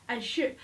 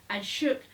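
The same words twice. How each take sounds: The two takes are said the same way.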